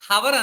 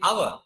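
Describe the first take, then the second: First: It begins with an audible H sound. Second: It begins with a vowel, no H sound. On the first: The speaker calls it wrong. "హవర్ అనం" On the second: The speaker calls it right. "We say అవర్"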